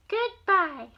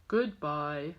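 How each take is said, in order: First: High, louder goodbye; high dog goodbye. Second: Low, deep goodbye; low dog goodbye. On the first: Grandma voicing a dog for her grandson, high goodbye. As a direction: chirp goodbye as the little dog. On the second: Grandma voicing the other dog, low goodbye. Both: Acted.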